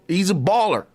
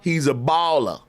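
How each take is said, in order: First: Baller ends with a clear r sound. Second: Baller ends in an open ah, no r.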